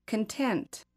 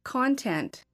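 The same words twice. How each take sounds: First: "Content" as con-TENT; stress on second syllable. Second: "Content" as a noun, CON-tent; noun stress on first syllable. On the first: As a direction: stress the last syllable of "Content", reduced "kun". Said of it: "and the verb second". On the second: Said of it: "I will say the noun first". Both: Shown as a demonstration.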